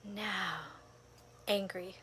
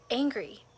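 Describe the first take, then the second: First: Breathy whisper of the word angry. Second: Said in the usual way. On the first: Shown as a demonstration. Naming her anger in meditation, whispered. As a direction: let angry slip out as a whisper. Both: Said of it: "every moment I would take a breath".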